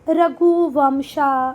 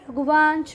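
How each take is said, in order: First: The name ends with an added 'a' vowel. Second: The name ends on a consonant, no final vowel. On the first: The speaker calls it wrong. "इसको आप लोग ऐसे भी पढ़ सकते हैं ... पर ये गलत है" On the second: The speaker calls it right. "नाम तो नाम होते हैं बेटा"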